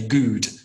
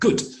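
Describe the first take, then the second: First: The vowel is drawn out long. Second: The vowel is kept short. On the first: The speaker calls it wrong. "it doesn't sound right if I say good" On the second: The speaker calls it right. "good is short"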